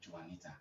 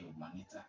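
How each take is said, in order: First: The J is pronounced as a consonant. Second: The J is silent. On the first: This is how people say it here. The speaker calls it wrong. "and not" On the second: This is how it is said where the name comes from. The speaker calls it right. "I'm going to say"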